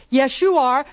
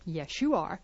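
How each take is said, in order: First: Loud. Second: Quiet. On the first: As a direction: snap it back loudly. Loud take of repeated line. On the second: Quiet take of repeated line. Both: Shown as a demonstration.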